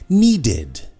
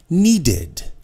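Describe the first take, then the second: No difference in how they are said.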